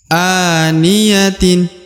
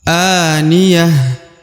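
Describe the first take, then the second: First: The word ends with a final 'tin' sound. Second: The word ends with a final 'h' sound. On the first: The reading continues on without stopping. "Kalau dibaca lanjut" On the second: The reading stops at this word. "Tapi kalau dihentikan"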